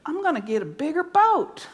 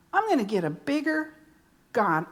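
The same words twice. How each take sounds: First: Said in the usual way. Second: Pause, then a low God; quiet build to a low God; stress on God. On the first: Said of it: "first take, boat". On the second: Shown as a demonstration. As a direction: hold before dropping God low. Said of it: "second take, God".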